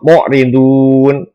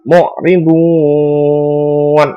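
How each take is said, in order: First: The long vowel is held for four beats. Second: The long vowel is held for more beats. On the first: "boleh dibaca empat harokat" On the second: "lebih panjang"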